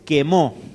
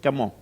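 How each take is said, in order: First: The first vowel is an 'e' sound. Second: The first vowel is an 'a' sound. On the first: "según en qué uso se usa la vocal E" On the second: "dice camó"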